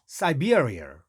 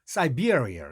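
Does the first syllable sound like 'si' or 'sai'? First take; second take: sai; sai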